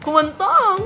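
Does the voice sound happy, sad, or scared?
happy. It is said in a happy, cheerful voice. "Ayun, happy"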